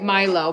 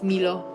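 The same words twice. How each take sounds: First: It is said with an American accent. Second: It is said with a French accent. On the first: "We say it Milo" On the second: "I'm imagining the French accent"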